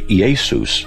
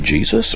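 First: The name begins with a Greek I sound. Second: The name begins with an English J sound. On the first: This is the original Greek pronunciation. "or say Iesus? Because in the Greek, it's how it's pronounced" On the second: This is the usual modern pronunciation. "So does the same person say Jesus"

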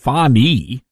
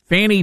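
First: The name is said in a Swahili-style way. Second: The name is said in an Americanized way. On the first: "meaning I guess you pronounce it Fani" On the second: "that's the Americanized pronunciation"

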